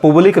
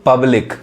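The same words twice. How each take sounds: First: पब्लिक as 'POOB-lik', with 'u'; wrong vowel demo. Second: पब्लिक as 'PUB-lik', short 'uh'; taught 'a' sound. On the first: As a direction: say पब्लिक with an 'oo' in front. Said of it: "पब्लिक नहीं कहेंगे". (पब्लिक को 'पुबलिक' बोलें) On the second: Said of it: "अ sound पढ़ा रहा है". (पब्लिक में 'प' पर छोटा 'अ' बोलें) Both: Shown as a demonstration.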